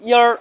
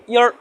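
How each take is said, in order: Both takes have the same delivery.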